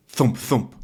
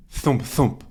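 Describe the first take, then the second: No difference in how they are said.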